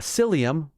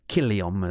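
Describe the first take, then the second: First: The name is said the modern English way. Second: The name is said the ancient Latin way. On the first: This is the modern English form. "that's what we say in English" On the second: This is how the ancient inhabitants said it. "Kilium is how they would have uh, pronounced it"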